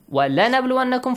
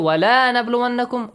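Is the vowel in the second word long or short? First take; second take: short; long. First: The vowel in 'la' is short. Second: The vowel in 'la' is long. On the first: It affirms that the testing will surely happen. The speaker calls it right. "for sure I will test you" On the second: It denies that any testing will happen. The speaker calls it wrong. "a single short vowel sound, if you change it to a long vowel, it changes the meaning"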